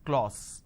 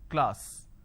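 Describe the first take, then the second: First: The vowel sounds like 'aw'. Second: The vowel sounds like 'ah'. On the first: The speaker calls it wrong. "they end up pronouncing this as class" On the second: The speaker calls it right. "This is how the pronunciation is"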